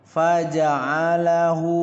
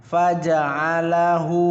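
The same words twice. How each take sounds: No difference in how they are said.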